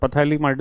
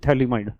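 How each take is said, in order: First: The word starts with a p sound. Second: The word starts with a t sound. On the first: The speaker calls it wrong. "पथैलीमाइड नहीं" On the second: The speaker calls it right. "यहाँ पीएच silent है"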